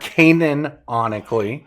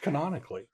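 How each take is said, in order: First: It starts with a drawn-out 'Canaan' sound. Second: It starts with a short 'can' sound. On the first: The speaker calls it wrong. "it's not Canaan or Canaan-onically" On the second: The speaker calls it right. "It's canonically"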